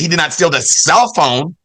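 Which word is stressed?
cell. The stress falls on the word cell. He stole something else, the charger. "that means he stole the, oh, the charger"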